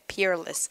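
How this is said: It is said with a clear R sound.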